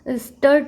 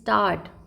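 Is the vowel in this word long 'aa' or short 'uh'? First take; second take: short uh; long aa. First: The vowel is a short 'uh' sound. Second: The vowel is a long 'aa' sound. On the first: The speaker calls it wrong. "हम स्टर्ट नहीं कहते हैं" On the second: The speaker calls it right. "बड़ा आ"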